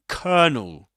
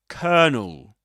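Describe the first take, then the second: Both takes have the same delivery.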